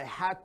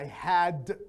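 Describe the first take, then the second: First: The word ends with a voiceless t sound. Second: The word ends with a voiced d sound. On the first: "if it's followed by two, it will be pronounced more like t" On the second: "if had on its own, it will be pronounced d"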